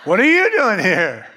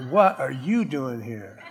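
First: Louder, laughing astonishment; a shocked person in heaven; shocked exclaim. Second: Softer, lower, through a laugh; shocked heaven folk laughing; laughing disbelief. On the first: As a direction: blurt it out amazed. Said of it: "people are gonna be shocked". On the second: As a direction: chuckle out the question. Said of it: "They're gonna go". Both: Acted.

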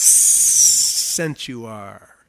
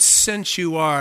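First: "since" opened with a long hissed S, low and drawn out; serpent hiss. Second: Said in the usual way. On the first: Acted. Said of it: "he probably had a little s". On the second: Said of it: "the sinister voice of the serpent".

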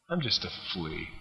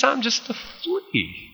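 First: Soft, low understated quote; hushed, lowered self-effacing delivery; quiet humility. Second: High, slow, playful squeak; mock little-flea voice, drawn out; tiny high voice. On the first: Retold or imitated. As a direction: say it small and low. Same line repeated, reflectively. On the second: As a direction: make yourself small with a high pitch. David belittles himself to Saul.

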